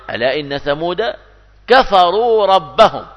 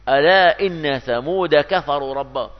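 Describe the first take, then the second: First: Quran recitation. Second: Said in the usual way. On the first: Acted. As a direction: intone it like tajweed, stretching كفروا. Reciting Quran verse in sermon.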